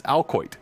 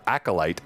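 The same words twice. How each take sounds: First: "alcoit" for acolyte, AL-koyt; letters swapped, "alcoit" ending in "oyt"; misread pronunciation. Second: "acolyte" said as AK-uh-lite; three clear syllables in "acolyte", ending like "light"; correct pronunciation. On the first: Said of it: "I read the word acolyte as". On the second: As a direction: standard "acolyte", stressed on the first syllable. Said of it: "how those words are said". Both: Shown as a demonstration.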